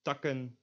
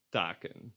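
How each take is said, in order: First: "Takken" with a short first vowel; lax vowel. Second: "taken" Dutch-style, long aa; tense vowel. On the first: Teacher shows the plural, lax short "Takken". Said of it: "lax version". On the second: Teacher shows the plural, tense long "taken". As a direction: draw out the aa in "taken". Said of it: "and the tense version". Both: Shown as a demonstration.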